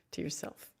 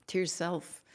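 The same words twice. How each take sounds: First: Whispered echo. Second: Said in the usual way. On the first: Shown as a demonstration. Healer echoing her blessing to viewers in a near whisper. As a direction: breathe the words again almost silently. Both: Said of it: "to yourself repeated".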